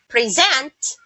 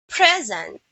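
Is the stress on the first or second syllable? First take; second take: second; first. First: The stress is on the second syllable. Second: The stress is on the first syllable.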